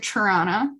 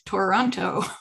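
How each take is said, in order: First: The name is said quickly with reduced syllables. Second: The name is said carefully with every syllable pronounced. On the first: The speaker is from near the city. The speaker calls it right. "That's how you can tell I'm from near there" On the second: The speaker is not from the area. The speaker calls it wrong. "I don't say it like I have a gun to my head"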